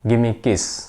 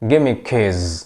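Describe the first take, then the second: First: The last word ends in a hissing s sound. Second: The last word ends in a buzzing z sound. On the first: It sounds like asking for a kiss. The speaker calls it wrong. "এই লাইনের উচ্চারণ আমরা স্বাভাবিকভাবে কি করি?" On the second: It asks for the keys. The speaker calls it right. "লাস্টে একটা S থাকলে সেই এস এর উচ্চারণ জয়ের মতো হয়"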